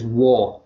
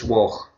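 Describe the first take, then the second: First: The name ends in a plain open vowel. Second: The name ends in a throaty ch sound. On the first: This is how people further south say it. "You pronounce it as Waugh" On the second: This is how the family says it. "We pronounce it, the G H is a ch"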